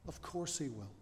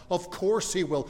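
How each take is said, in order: First: Very soft, quiet repeat for effect; hushed assurance. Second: "course" raised high in an emphatic answer; emphatic assurance. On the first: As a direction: drop right down and let it settle. Same answer repeated softly for effect. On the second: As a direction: punch "course" as the obvious answer. Preacher answers his own question. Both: Real, not acted.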